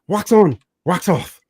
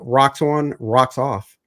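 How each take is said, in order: First: It is said in a put-on Asian accent. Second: It is said in his normal voice.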